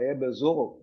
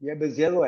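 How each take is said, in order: First: The second syllable has a 'u' vowel. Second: The second syllable has an 'i' vowel. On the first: The speaker calls it right. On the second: The speaker calls it wrong.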